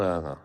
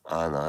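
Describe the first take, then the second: First: Said in the usual way. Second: Anna said carefully, as a self-correction; deliberate pronunciation of Anna; corrected pronunciation. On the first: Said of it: "must always remember to pronounce it". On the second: Shown as a demonstration. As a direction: correct yourself on the name Anna. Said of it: "remember to pronounce it as Anna".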